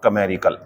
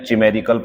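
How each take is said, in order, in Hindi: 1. यह शब्द k ध्वनि से शुरू होता है। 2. यह शब्द ch ध्वनि से शुरू होता है। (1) "ये होता है बच्चों कमेरिकल" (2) "ये दोनों गलत है"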